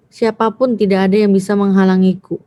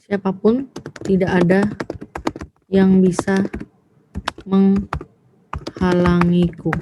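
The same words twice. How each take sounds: First: Said in the usual way. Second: Phrase by phrase with long pauses; slow dictation. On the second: Shown as a demonstration. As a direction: dictate it slowly, drawing out the last word. Dictates example, then rereads it whole. (mendikte pelan, terputus-putus)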